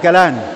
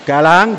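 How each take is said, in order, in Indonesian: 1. Namanya berakhir dengan bunyi n biasa. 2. Namanya berakhir dengan bunyi ng. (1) "dibaca Galan" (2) "Galang dibaca Galan"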